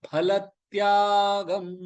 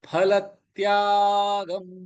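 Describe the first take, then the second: The two takes are said the same way.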